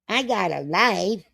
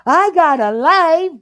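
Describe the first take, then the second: First: It is said in a normal voice. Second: It is said in a high-pitched voice.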